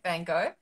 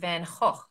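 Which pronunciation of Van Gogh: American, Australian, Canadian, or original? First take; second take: Canadian; original. First: Van Gogh is said the Canadian way. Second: Van Gogh is said the original way. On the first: "Canadians say" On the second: "the actual way to pronounce it"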